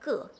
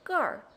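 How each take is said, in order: First: It ends plainly in a vowel, without an r-sound. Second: It ends with a curled r-sound.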